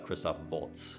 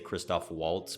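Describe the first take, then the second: First: Waltz begins with a V sound. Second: Waltz begins with an English W sound. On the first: This is the original pronunciation of the name. "but it's uh" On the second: This is how Americans say the name. "We in America we say Christoph Waltz"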